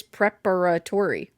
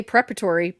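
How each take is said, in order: First: "preparatory" with every syllable sounded; full pronunciation. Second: "preparatory" with a syllable skipped; shortened pronunciation. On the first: Showing co-host the letters that get skipped, full pronunciation. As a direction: say "preparatory" in full, as prep-a-ra-tory. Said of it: "but there is preparatory". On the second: Defending a co-host's word choice, shortened pronunciation. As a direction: say "preparatory" shortened, as prep-a-tory. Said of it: "I say preparatory, but there is". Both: Shown as a demonstration.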